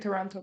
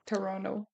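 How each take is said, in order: First: The second T is clearly pronounced. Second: The second T is dropped, Toronto-local style.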